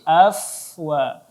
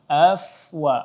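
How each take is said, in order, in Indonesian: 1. Konsonan tengah itu bunyi f. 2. Konsonan tengah itu bunyi f.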